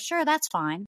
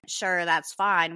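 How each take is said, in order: First: It sounds sincere, without any attitude. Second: It sounds annoyed, with an eye-rolling attitude.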